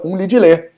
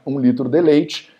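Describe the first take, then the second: First: The words merge into a few short syllables. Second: Every syllable is said fully and separately.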